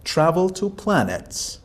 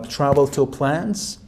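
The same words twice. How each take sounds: First: "planets" said fully with two syllables, plæ-nəts; "travel to planets", the correct word said clearly. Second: "plants" said with one syllable, plænts; "travel to plants", the student's slip, said slowly; misheard word. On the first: Teacher giving the correct word, two clear syllables. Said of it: "and you meant". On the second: Teacher quoting the student's slip, slowly. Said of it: "For example, you said". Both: Shown as a demonstration.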